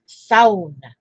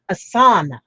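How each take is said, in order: First: The first syllable rhymes with 'cow'. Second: The first syllable does not rhyme with 'cow'. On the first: The speaker calls it right. "it's sauna, like S O W" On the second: The speaker calls it wrong. "here over here in America, they call it a sauna"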